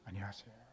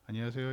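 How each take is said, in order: First: The greeting sounds very polite and respectful. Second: The greeting sounds plain and casual.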